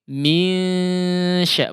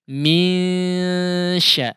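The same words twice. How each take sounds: First: The nasal is light, with air through mouth too. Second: The same.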